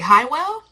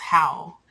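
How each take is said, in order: First: The name is said as two syllables, 'high-well'. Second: The name is said as one syllable, 'howl'. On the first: The speaker calls it wrong. "I was pronouncing his name a completely different way. I was like" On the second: The speaker calls it right. "so his name is pronounced Howl"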